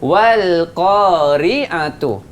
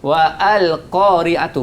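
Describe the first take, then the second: First: The alif is skipped and wa links to l. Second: The alif is sounded separately after wa. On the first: The speaker calls it right. "Kita langkah alif tu. Alif tu kita tak baca" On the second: The speaker calls it wrong. "Betul salah"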